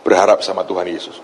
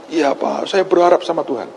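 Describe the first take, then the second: First: Said in the usual way. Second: Imitated woman caller. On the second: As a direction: answer obediently in a lifted woman's voice. Voices the woman's reply to him. (menirukan ibu menjawab dengan suara lebih tinggi)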